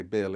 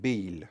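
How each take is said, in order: First: Said in the usual way. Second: "Bill" said the Italian way, as "Beel"; Italian accent. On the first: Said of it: "the way the Italians say Bill". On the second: Shown as a demonstration. Showing how Italians say the name, Italian accent. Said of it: "the way the Italians say Bill is like".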